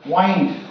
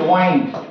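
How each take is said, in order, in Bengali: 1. এই স্বরধ্বনিটি লম্বা 'eye' ধ্বনি। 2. এই স্বরধ্বনিটি লম্বা 'eye' ধ্বনি।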